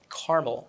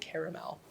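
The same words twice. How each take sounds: First: The word is said in an everyday, casual way. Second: The word is said in a fancy, pretentious way. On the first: This is the usual way to say it. "which is how I normally pronounce it" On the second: The occasion is posh or pretentious. "when I'm feeling pretentious, I say caramel"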